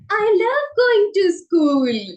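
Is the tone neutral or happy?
happy. It is said in a happy, cheerful tone.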